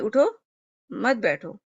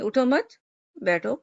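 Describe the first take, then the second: First: There is a pause after the first word. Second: There is a pause after the second word.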